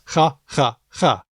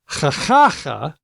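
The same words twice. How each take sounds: First: All three syllables are equally stressed. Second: Only the middle syllable is stressed.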